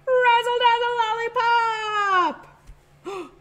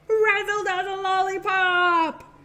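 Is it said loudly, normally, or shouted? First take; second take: shouted; normally. First: It is shouted very loudly. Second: It is said at normal loudness.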